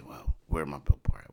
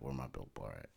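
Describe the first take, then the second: First: Said in the usual way. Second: Lower, soft murmur; quiet, lower repeat. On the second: Retold or imitated. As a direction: mutter the question again softly. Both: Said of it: "I look at it and I say".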